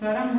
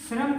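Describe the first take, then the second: First: The word begins with 'shar', the cluster split. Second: The word begins with the cluster 'shr'. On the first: This is the Chhattisgarhi form. "शरम हो जाता है" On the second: This is the standard form. "श्रम की बात करूं"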